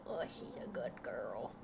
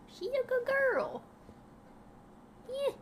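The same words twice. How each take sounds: First: Soft whispered praise for the dog; hushed good-girl whisper. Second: Much higher dog-praise voice; high sing-song praise; baby talk. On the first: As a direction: breathe it to the dog. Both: Acted.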